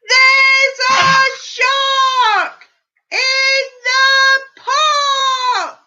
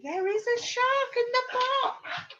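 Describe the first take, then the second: First: High, loud, slow drawn-out chant; shout. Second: Said in the usual way. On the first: Acted. Reader leading the children in Timothy's big shout. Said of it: "What do you think he's about to shout?".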